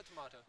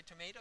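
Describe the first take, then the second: First: "tomato" with an AH in the middle; long open AH in "tomato"; British pronunciation. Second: "tomato" with an AY in the middle; American pronunciation. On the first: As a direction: say "tomato" as tuh-MAH-toh. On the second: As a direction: say "tomato" as tuh-MAY-toh. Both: Shown as a demonstration. Asks which pronunciation they use.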